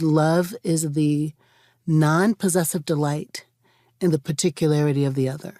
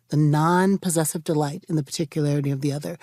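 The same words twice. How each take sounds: First: Slow, weighty quote; deliberate recitation; quoted slowly. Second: Quicker restatement, rising; brisk repeat; restated faster. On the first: Retold or imitated. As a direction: savor each word of the quote. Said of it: "Jim Loder, my professor, said". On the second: Shown as a demonstration. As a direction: run it again with a lift. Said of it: "repeated quote".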